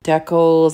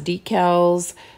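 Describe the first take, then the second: First: It is pronounced the way Canadians say it. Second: It is pronounced the way Americans say it. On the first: "Canada says decals" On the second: "I think the U S says decals"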